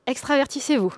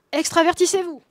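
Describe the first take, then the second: First: Said in the usual way. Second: Louder emphatic repeat. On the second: Shown as a demonstration. Book title repeated, escalating.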